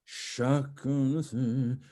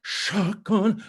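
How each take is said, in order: First: "chacun" stretched evenly, without a punch; drawn-out CHACUN. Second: "chacun" punched high and loud; accented CHACUN. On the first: Coach models the word for singer, smooth and drawn out on "chacun". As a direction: hold both syllables of "chacun" smoothly. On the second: Coach shows singer more accent, "chacun" punched high. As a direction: hit "chacun" with a strong accent. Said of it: "a little bit more accent". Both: Shown as a demonstration.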